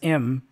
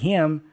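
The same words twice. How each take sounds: First: The h sound at the start is dropped. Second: The h sound at the start is pronounced. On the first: "He also reduces the age for him" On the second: "instead of saying him"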